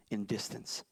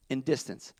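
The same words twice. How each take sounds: First: Soft, low, murmured; preacher murmuring the point; hushed. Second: Said in the usual way. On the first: Acted. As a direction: drop to a near whisper. Hushed first take.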